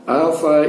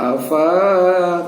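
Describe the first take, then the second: First: The vowel after the f is short. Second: The vowel after the f is long. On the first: The speaker calls it right. "ini juga kita baca pendek saja" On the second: The speaker calls it wrong. "jadi tidak dibaca panjang. Tidak kita baca afa, tidak"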